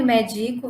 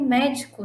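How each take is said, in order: First: Medico with the middle syllable DI stressed. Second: Médico with the first syllable MÉ stressed. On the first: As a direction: say medico as the verb, me-DI-co. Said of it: "Isso sem um acento". (medico com a sílaba DI tônica) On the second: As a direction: say médico as the noun, MÉ-di-co. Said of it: "com o acento eu tenho médico". (médico com a sílaba MÉ tônica) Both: Shown as a demonstration.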